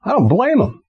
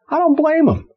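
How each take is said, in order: First: Said in the usual way. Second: I don't blame 'em, DON'T pitched way up; preacher repeating for effect; emphatic repeat, much higher. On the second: Acted. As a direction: lean hard on don't, high and insistent.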